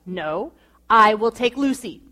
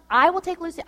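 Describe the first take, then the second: First: A mild, imitated sharp refusal, stress on I; firm, clipped-off final word on it. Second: Put-on higher, insistent offer to take the baby; adamant insisting. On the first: Husband shutting down his wife's offer, mock sharp tone. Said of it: "he said it in that sharp tone". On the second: Wife insisting to husband she'll take the baby, adamant. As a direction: press the point, eager and firm. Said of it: "I was so adamant".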